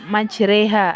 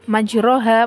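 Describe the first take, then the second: First: The second vowel leans toward an 'e' sound. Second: The second vowel sounds like a plain 'a'. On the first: The vowel is tilted toward kasrah. "karena ini imalah, maka majroha menjadi majreha" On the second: It follows the written vowel mark. "tulisan dalam Al-Quran adalah majroha"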